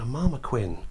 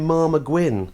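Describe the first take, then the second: First: The last syllable starts with a k sound. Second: The last syllable starts with a g sound. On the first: The speaker calls it wrong. "I mispronounced one of the animals" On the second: The speaker calls it right. "I wish I'd pronounced it properly. It's supposed to be a marmaguin"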